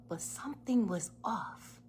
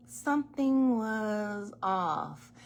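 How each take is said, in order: First: Said in the usual way. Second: Something was off said slowly; slow weighty Something was off; slow emphatic repeat. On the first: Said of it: "first take". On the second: Shown as a demonstration. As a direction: lean hard on Something, slow and deliberate.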